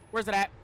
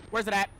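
The two takes are said the same way.

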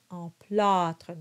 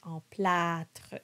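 First: Emplâtre with a darker, closed A. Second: Emplâtre with a bright open A, the wrong way; the wrong emplâtre, flat A. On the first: Coach gives the right emplâtre. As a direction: say emplâtre with a dark back A. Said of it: "to darken the A". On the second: Coach shows the wrong emplâtre. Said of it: "not emplâtre". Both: Shown as a demonstration.

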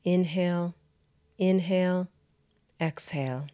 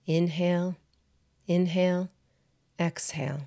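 Both takes have the same delivery.

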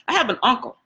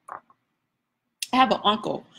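First: Said in the usual way. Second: Slow it right down and let "have" land heavy; pause-laden storyteller's emphasis; slow, weighty repeat. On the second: Shown as a demonstration.

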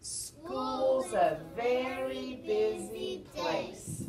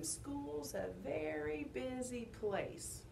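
First: Slow, drawn-out group chant; big, stretched-out closing line; everyone's recital line. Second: Slow, softer demonstration; modelling the line. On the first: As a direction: call it out slowly for all to join. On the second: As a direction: quietly model it, drawn out. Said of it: "you're gonna say". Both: Shown as a demonstration.

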